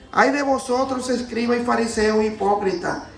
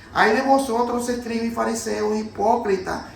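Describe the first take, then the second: The two takes are said the same way.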